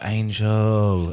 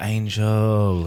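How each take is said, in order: First: It is said in a disappointed tone. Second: It is said in a disappointed tone.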